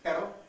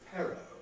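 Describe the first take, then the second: First: The p is released without a puff of air. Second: The p is released with a puff of air. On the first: The speaker calls it right. "the Spanish word for but, which is pero" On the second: The speaker calls it wrong. "an English mispronunciation of that same word"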